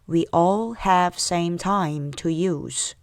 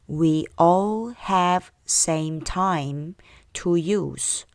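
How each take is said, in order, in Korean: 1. 이 문장은 조금 더 빠르게 말합니다. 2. 이 문장은 보통 속도로 말합니다. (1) "조금 더 빨리 갈게요" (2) "처음부터요"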